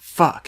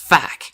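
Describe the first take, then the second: First: The word has the plain 'uh' vowel. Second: The word has an 'a' vowel, like 'fack'. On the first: The speaker calls it wrong. "It's not fuck" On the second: The speaker calls it right. "it's fuck. It's like fuck. Like it's F A C K"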